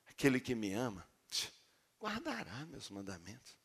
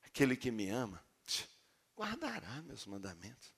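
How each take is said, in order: First: It is said in a warm, gentle tone. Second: The same.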